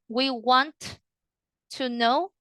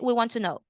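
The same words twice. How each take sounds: First: Both T sounds are said separately. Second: The two T sounds merge into one. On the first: The speaker calls it wrong. "instead of saying" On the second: The speaker calls it right. "The the two T's, you combined it"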